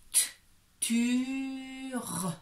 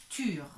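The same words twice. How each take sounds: First: "T" alone, then "tur" high and long; sounding out. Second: "tur" joined in one go, less stretched; blended syllable. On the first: Teacher shows a child three sounds, segmented and drawn out. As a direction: split off the "T", then stretch "tur". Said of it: "Trois sons". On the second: Teacher sums up three sounds, blended together. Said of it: "Donc, ça fait". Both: Shown as a demonstration.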